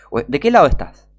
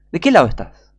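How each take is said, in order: First: Said in the usual way. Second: "qué" punched louder, falling at the end; louder, with "qué" stressed. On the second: Real, not acted. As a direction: hit "qué" hard in "¿De qué lado estás?". Repeats challenge to viewer.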